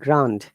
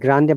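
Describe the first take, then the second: First: The word is pronounced the English way. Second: The word is pronounced the Spanish way. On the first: "when you pronounce in English, ... We said Grande" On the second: "in Spanish it is Grande"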